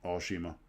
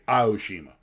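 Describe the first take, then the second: First: All syllables are even, in a monotone. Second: One syllable is stressed, with inflected pitch. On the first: This is how it would be said in Japan. The speaker calls it right. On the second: This is how English speakers say it. The speaker calls it wrong.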